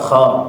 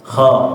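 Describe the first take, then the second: First: The kh sound is thin and light. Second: The same.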